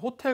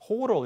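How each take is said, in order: First: The t is a clear, crisp t sound. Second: The t is a soft, l-like flap. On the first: The speaker calls it right. "호텔이라고 발음해야지" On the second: The speaker calls it wrong. "호로 이렇게 발음하지 않거든요"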